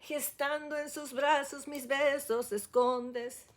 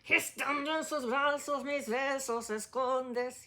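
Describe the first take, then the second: First: It sounds gentle, without any growl. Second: It sounds angry, like a growl.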